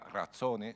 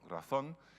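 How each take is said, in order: First: An extra 'e' vowel is added at the end. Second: The word ends with an 'n' sound. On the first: The assumed performed form with an added vowel. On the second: The form as written in the text.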